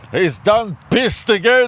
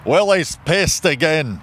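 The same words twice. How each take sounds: First: Slow, higher Southern drawl on "done pissed"; hammed-up drawl. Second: Slow deadpan quote. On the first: Riffing on the friend's line in a hammed-up drawl. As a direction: stretch "He's done pissed again" lazily. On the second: Retold or imitated. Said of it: "And the guy just go".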